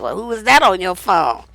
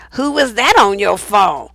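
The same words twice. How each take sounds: First: Lower, suspicious jealous question; nasty accusing tone. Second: Slow, suspicious jealous question; nasty accusing tone. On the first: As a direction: mimic his snide accusation. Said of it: "with this fucked up tone". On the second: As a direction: drag it out like an accusation. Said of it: "with this fucked up tone of voice". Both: Retold or imitated.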